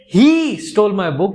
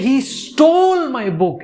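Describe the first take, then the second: First: The stress is on "he". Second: The stress is on "stole".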